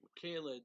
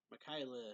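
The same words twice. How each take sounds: First: Michaela said as "mi-KAY-luh"; mispronounced name. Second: Michaela said as "mi-KY-luh"; corrected name. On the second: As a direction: say the middle of Michaela to rhyme with "sky". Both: Real, not acted. Self-corrects name's pronunciation.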